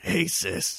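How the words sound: It is said in an enraged, explosive tone.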